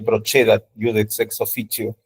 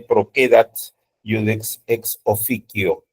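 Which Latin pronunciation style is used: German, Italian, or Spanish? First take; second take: Italian; German. First: The c before e and i sounds like ch. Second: The c before e and i sounds like k. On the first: "A mí me enseñaron la italiana" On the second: "la pronunciación alemana... la C se pronuncia como K"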